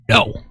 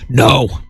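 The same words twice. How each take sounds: First: It is said weakly and softly. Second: It is said forcefully and loudly.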